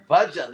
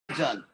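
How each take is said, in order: First: The first vowel is short, as in 'budge'. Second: The first vowel is long and open. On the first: The speaker calls it right. "It's actually the word bhajan. Like it, it's like when you like the way you pronounce this word budge" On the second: The speaker calls it wrong. "People say bhajan commonly in America, which literally means a container"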